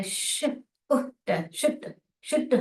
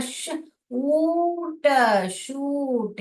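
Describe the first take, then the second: First: श-, उट, शुट with a clipped short oo; short vowel blend. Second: श-, ऊट, शूट very slow, oo held; long vowel blend. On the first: Teacher reading the typed word, short oo in शुट. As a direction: blend into शुट, oo kept brief. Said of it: "ये वाला नहीं आना चाहिए". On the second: Teacher showing how we say it, long oo in शूट. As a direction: stretch the oo right out in शूट. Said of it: "शूट हम कैसे बोलते हैं?". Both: Shown as a demonstration.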